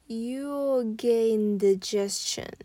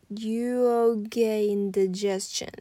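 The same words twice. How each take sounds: The two takes are said the same way.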